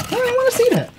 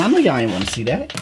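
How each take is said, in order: First: Much higher, squeaky mock voice. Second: Said in the usual way. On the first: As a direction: squeak it out, teasing. Repeats line in put-on voice.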